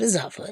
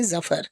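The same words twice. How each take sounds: First: The name does not rhyme with 'duffer'. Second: The name rhymes with 'duffer'. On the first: The speaker calls it wrong. "he kept talking of Bahadur Shah Zafar as" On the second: The speaker calls it right. "It rhymes with Duffer"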